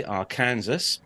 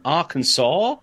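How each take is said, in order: First: Arkansas said like Ar-Kansas, sounding the s; Captain Nick's Arkansas. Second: Said in the usual way. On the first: Retold or imitated. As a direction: Arkansas as Ar-KAN-zus. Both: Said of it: "as Captain Nick would say".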